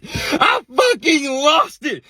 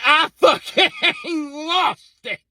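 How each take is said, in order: First: I fucking lost it drawn out very slow and louder, each word weighted; emphatic. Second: Breaking into real laughter mid-line; laughing. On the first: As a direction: stretch out I fucking lost it, leaning hard on fucking. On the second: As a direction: laugh it out as you say it. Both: Real, not acted.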